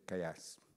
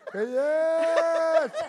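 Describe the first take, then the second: First: The second syllable is short. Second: The second syllable is drawn out very long. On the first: It happened recently. "if it happened yesterday, or last week, you say kayas" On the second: It happened very long ago. "something that happened 100 years ago, you go kayas"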